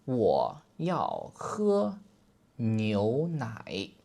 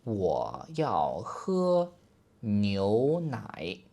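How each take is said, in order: No difference in how they are said.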